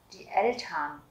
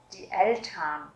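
Both takes have the same delivery.

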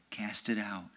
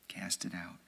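First: Said in the usual way. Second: Much softer, lower repeat; soft echo. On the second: Shown as a demonstration. Preacher repeating the command to the faithful, hushed. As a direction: let it fade to a hush. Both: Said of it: "repeated command".

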